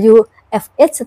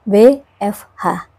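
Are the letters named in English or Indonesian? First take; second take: English; Indonesian. First: The letters are named the English way. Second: The letters are named the Indonesian way. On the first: The speaker calls it wrong. "Tidak dibaca" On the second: The speaker calls it right.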